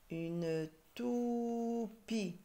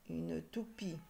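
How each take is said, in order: First: Very slow "toupie", "tou" held high; syllable by syllable. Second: Said in the usual way. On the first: Shown as a demonstration. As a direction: stretch "tou", then separate "pie". Teacher sounding out syllables.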